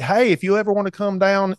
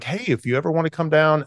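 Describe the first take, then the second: First: It is said in a Georgia accent. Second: It is said in the speaker's usual accent.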